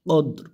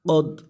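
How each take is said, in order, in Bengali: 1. শব্দটি র ব্যঞ্জন দিয়ে শেষ হয়। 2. শব্দটি র ব্যঞ্জন দিয়ে শেষ হয়।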